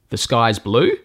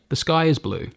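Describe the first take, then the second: First: The voice rises at the end. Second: The voice falls at the end. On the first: It sounds like a question. "where I put an inflection on the end, where it means it sounds like a question" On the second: It sounds like a statement. "that's a statement"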